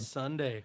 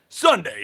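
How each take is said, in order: First: It is said in a normal speaking voice. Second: It is said in an exaggerated put-on voice. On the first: The speaker calls it wrong. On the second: The speaker calls it right.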